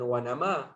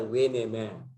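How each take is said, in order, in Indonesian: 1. Vokal pertama adalah 'a' terbuka yang jelas. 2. Vokal pertama condong ke arah 'e'. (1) "bukan wa nama" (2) "tapi dibaca we nama"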